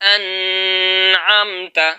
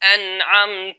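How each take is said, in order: First: The n sound flows on continuously without stopping. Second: The n sound is held moderately, neither cut nor flowing. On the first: The speaker calls it wrong. "सिफ्त रिखावत को नून में जो है अदा करेंगे तो ये यूं होगा" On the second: The speaker calls it right. "बिल्कुल दरमियानी कैफियत है, तवस्सुत के साथ हमने पढ़ा है"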